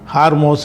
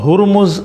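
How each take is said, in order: First: The name is said as 'Haarmos', with long vowels. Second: The name is said as 'Hurmuz', with short vowels. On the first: This is how people commonly say it. The speaker calls it wrong. "ஹார்மோஸ் இப்படிலாம் சொல்கிறாங்க" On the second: This is the Persian pronunciation. The speaker calls it right. "சரியான உச்சரிப்பு வந்து ஹுர்முஸ்ன்னு தான் அந்த பாரசீக மொழியில்"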